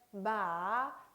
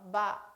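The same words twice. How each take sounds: First: The pitch dips and trails off smoothly. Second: The pitch is low, short and abruptly cut. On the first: "흘려주듯이 발음을 하면 되겠습니다" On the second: "짧고 또 굵게 끊어서 발음"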